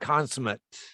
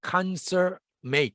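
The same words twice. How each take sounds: First: The word is given its adjective pronunciation. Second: The word is given its verb pronunciation. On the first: It means complete or perfect. "형용사는 consummate" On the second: It means to complete or bring to fulfillment. "동사로는 발음이 조금 달라집니다. consummate 되겠죠"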